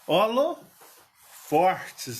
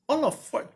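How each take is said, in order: First: An r sound comes before the t. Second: No r sound comes before the t. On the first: This is how people in Minas Gerais say it. "aqui em Minas aqui o povo fala holofortes" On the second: This is the standard form the speaker finds hard to say. "de vez em quando eu falo holofote"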